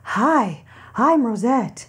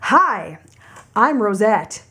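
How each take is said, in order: First: It is said in a lifted falsetto head voice. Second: It is said in a normal chest speaking voice.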